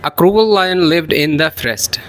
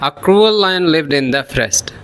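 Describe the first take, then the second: First: The words run together, linked smoothly. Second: The same.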